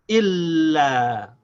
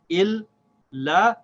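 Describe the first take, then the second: First: The two syllables are joined without a break. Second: The two syllables are said apart with a break.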